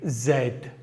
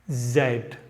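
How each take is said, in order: First: The letter is said the British way, zed. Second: The letter is said the British way, zed.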